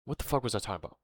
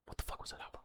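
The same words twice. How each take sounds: First: Said in the usual way. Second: Whispered. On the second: Real, not acted. Vlogger losing his thread, whispering to himself. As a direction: whisper it, much softer. Lost his train of thought.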